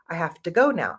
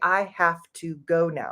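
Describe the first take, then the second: First: 'Have to' is blended into one reduced word. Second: Each word of 'have to' is said separately. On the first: The speaker calls it right. "We say" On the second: The speaker calls it wrong. "We don't say"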